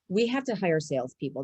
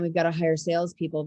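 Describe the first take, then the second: First: It sounds excited and positive. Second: It sounds annoyed, with a weary sigh.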